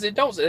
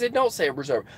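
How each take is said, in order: First: A mild mimic of how the other driver said it; imitating the guy. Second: Said in the usual way. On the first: Driver quoting the other man word for word, lightly imitated. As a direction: lightly copy his phrasing of "It don't say". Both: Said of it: "that's how he said it".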